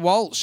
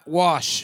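First: The name is said with an L sound. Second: The name is said without an L sound. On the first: The speaker calls it wrong. "I used to say Martha Walsh" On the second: The speaker calls it right. "There's no L in it"

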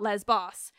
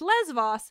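First: The middle consonant is a b sound. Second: The middle consonant is a v sound. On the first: The speaker calls it wrong. "not Lesbos" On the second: The speaker calls it right. "the correct pronunciation is Lesvos"

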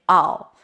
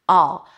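The two takes are said the same way.

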